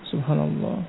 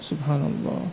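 Both takes have the same delivery.

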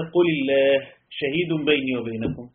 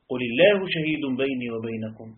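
First: There is a pause after the word Allah. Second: There is no pause after the word Allah. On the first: Allah alone is the answer, and witness begins a new sentence. "لاحظ الفرق هنا" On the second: The whole phrase is one answer: Allah is witness between us. "الثانية"

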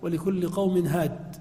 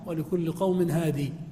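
First: The last word ends without a final vowel. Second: The last word ends in a long 'ee' vowel. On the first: This is the usual reading when pausing. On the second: This is a less common reading when pausing.

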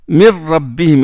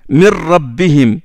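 No difference in how they are said.

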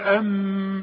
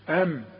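First: The m is held with a nasal hum. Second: The m is short without a nasal hum. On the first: The speaker calls it wrong. "مش تقول ام" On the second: The speaker calls it right. "ما دام الميم عليها سكون ما تغنهاش"

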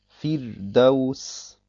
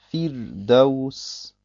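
The two takes are said the same way.

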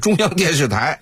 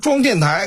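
First: Every syllable is pronounced fully and clearly. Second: The syllables are swallowed into a short slurred form. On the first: "实际上就是中央电视台" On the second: "吞字吐字模糊含混不清"

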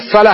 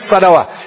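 First: The final vowel is a long a. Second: The final vowel sounds like an o. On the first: The speaker calls it right. "هي الصلاة" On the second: The speaker calls it wrong. "هي ما هي الصلوة"

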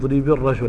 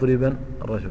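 First: No nun sound is heard before the article. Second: A nun sound is heard before the article. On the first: The speaker calls it right. "تقول ضرب الرجل" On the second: The speaker calls it wrong. "ولا تقول ضربا الرجل"

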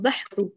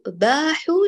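First: The vowel after the b is kept short. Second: The vowel after the b is drawn out long. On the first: The speaker calls it right. "أيوة بحوا" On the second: The speaker calls it wrong. "لا نقول أصباحوا باحوا لو كانت الباء ممدودة ألف"

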